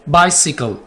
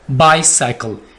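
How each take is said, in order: First: The second syllable has the short 'si' sound. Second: The second syllable has the long 'sai' sound. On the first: The speaker calls it right. "ये बाईसाइकिल नहीं है" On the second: The speaker calls it wrong. "इसको आमतौर पर पता है कैसे बोला जाता है"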